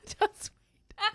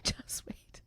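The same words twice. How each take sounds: First: High teasing voice. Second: Whisper. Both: Acted. Teasing about what comes next.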